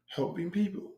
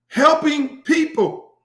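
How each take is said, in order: First: Quiet catchphrase. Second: "Helping people" sung out high, loud and slow; high drawn-out catchphrase. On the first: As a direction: toss the tagline off quietly. Catchphrase repeated low. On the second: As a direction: belt the tagline, stretched out. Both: Pretend.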